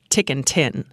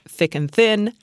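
First: The th sounds are said as t. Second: The th sounds are said as th.

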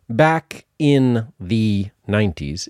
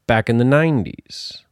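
First: The words 'in the' are said fully and clearly. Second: The words 'in the' are reduced and run together. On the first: The speaker calls it wrong. "It's not back in the 90s" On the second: The speaker calls it right. "It's back in the 90s"

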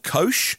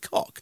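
First: The name ends with an sh sound. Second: The name ends with a hard k sound. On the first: The speaker calls it right. "I think it would be Kosh" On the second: The speaker calls it wrong. "I don't think I pronounce it cock"

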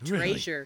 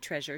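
First: The word has a Southern US pronunciation. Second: The word has a standard US pronunciation. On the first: "She would say treasure" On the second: "She wouldn't say treasure"

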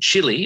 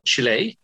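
First: It is said with an English pronunciation. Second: It is said with a Spanish pronunciation.

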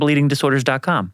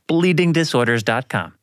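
First: The address is said quickly. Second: The address is said slowly. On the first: "because I said that really fast" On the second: "One more time"

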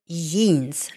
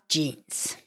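First: The word begins with a Y sound. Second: The word begins with a J sound. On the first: "J is pronounced like the English Y" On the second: "not jeans"

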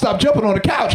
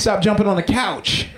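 First: The voice is loud, deep and commanding. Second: The voice is calm and at normal volume. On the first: A stern final warning. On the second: A polite first request.

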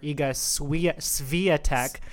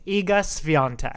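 First: The surname is said without an n sound. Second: The surname is said with an n sound. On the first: The speaker calls it wrong. "I kept on calling her Iga Swiatek" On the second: The speaker calls it right. "It's Iga Swiatek"

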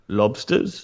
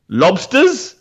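First: The word is said with no energy. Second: The word is said with some energy. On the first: The speaker calls it right. "he's got no energy at all" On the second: The speaker calls it wrong. "I said it wrong then, because I actually said it with a bit of sort of spirit"

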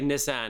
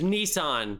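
First: Nissan is said with a British-style pronunciation. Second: Nissan is said with an American pronunciation. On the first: This copies how an actor said the name. "we'll say Nissan because, you know, that's how Orlando Bloom said it" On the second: This is how the name is normally said. "It's Nissan"

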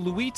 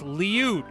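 First: The name is said with the vowels flipped, loo-EET. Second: The name is said in its usual order, lee-OOT. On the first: The speaker calls it wrong. "he'd go, "Oh, you got the Luit on tonight."" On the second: The speaker calls it right. "it's Liu"

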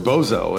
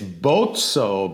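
First: The double z sounds like a plain z. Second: The double z sounds like ts, as in pizza. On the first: The speaker calls it wrong. "growing up, we were Bozzo" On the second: The speaker calls it right. "the correct pronunciation is with the long O and the two Z's like pizza"

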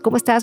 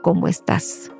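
First: It is asked quickly and offhandedly. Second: It is asked slowly and with real care.

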